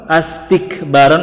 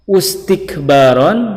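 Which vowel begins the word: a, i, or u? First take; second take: a; u. First: The word begins with the vowel a. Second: The word begins with the vowel u.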